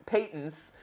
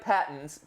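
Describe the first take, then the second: First: "patents" with the long A of "pay". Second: "patents" with the short A of "pat". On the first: Host correcting himself on copyright, "patents" said PAY-tents. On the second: Host reading out copyright trouble, "patents" said PAT-ents. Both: Shown as a demonstration. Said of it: "are you patents or patents?".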